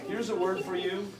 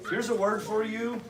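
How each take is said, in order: Both takes have the same delivery.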